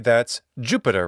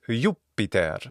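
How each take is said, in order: First: The name has its usual English pronunciation. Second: The name has a classical Latin pronunciation. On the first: "In Roman mythology" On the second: "what is it in Latin? Well, it's"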